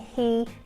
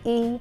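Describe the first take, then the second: First: The H sound is pronounced. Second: The H sound is dropped. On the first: "instead of saying" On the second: "he might say e"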